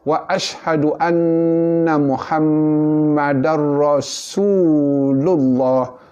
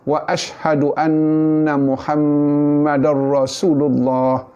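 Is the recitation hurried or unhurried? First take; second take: unhurried; hurried. First: It is unhurried, with the su vowel held. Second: It is rushed, with the su vowel clipped. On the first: The speaker calls it right. "bunyi su itu mat asli, dua harkat" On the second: The speaker calls it wrong. "orang yang gopoh ... laju"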